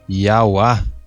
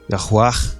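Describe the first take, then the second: First: The name ends on an open vowel. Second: The name ends with a faint final consonant. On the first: The speaker calls it wrong. "esse R aqui não se pronunciava" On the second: The speaker calls it right. "esse R aqui"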